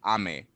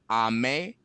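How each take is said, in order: First: "ame" falling on the second syllable; high-then-low pitch accent. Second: "ame" rising on the second syllable; low-then-high pitch accent. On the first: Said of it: "high and low". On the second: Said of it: "low and high versus". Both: Shown as a demonstration.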